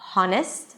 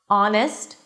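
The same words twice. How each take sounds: First: The word starts with an audible H sound. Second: The word starts with a vowel, no H. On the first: The speaker calls it wrong. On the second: The speaker calls it right. "the H is there in the spelling, but is absolutely not pronounced"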